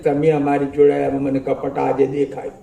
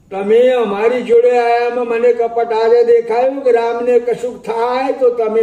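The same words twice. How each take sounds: First: Said in the usual way. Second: Repeated higher and louder in anger; angry reproach. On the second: Acted. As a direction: Sita lashing out at Lakshman. Sita accuses Lakshman. (ગુસ્સામાં ઊંચા, મોટા અવાજે)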